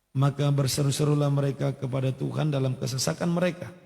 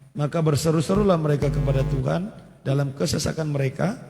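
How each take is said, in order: No difference in how they are said.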